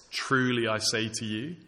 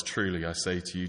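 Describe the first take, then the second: First: Truly lifted and leaned on, with a rising tune; stress on Truly. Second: Said in the usual way. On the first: Shown as a demonstration. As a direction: press the word Truly to make the promise sincere. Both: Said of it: "It's a sincere promise".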